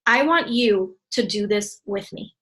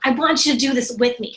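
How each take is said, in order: First: Slow dictation. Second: With enthusiasm. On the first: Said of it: "Write this one down". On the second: Coach showing how to invite a friend, enthusiastic. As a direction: sell it like you're loving it. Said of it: "you say it with enthusiasm". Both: Shown as a demonstration.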